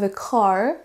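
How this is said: The final R is soft but still heard. The speaker calls it right. "mais bien I have a car pour un accent plutôt américain"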